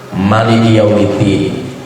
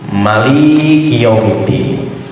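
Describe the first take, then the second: First: All syllables of Maliki are short. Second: The second syllable of Maliki is lengthened. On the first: "bisa dipendekkan semua" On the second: "boleh lamnya yang dipanjangkan, mimnya dipendekkan"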